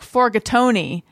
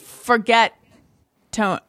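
First: It is said as one Italian-sounding word. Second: It is said as two plain English words. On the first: "pronounced the Italian way, like forgatoni" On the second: "I think it's forget tone"

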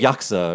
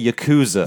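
First: The middle vowel is dropped. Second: The middle vowel is fully pronounced. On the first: The speaker calls it right. "It's more like Yaksa" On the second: The speaker calls it wrong. "I hate when people say Yakuza"

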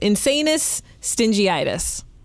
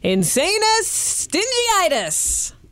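First: It is said plainly, without bravado. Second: It is said with bold bravado.

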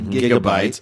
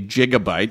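First: The word begins with a hard G sound. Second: The word begins with a soft J sound. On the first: The speaker calls it right. "I happen to like the hard G because" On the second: The speaker calls it wrong. "we don't say gigabyte"

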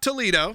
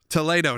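First: The name is pronounced the usual English way. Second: The name is pronounced the Spanish way. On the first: The speaker calls it wrong. "not Toledo" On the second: The speaker calls it right. "what I was corrected, is Toledo"

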